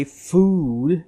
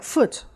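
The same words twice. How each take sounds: First: Said in the usual way. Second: "foot" with a short, squeezed vowel. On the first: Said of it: "don't want to squeeze out your vowel sounds". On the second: Shown as a demonstration. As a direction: cut the vowel short so food becomes "foot". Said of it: "squeeze out the sound".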